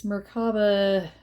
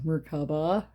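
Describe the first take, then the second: First: "Merkaba" with the stress on the wrong syllable. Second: "Merkaba" re-said with the stress moved, rising at the end; corrected stress. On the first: Reader misreading a card name to viewers, wrong stress. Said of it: "I'm saying that wrong". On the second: Reader correcting a card name for viewers, shifted stress. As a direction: try "Merkaba" again with new stress, ending on a rise. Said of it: "putting the wrong, uh, emphasis on the wrong syllable". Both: Shown as a demonstration.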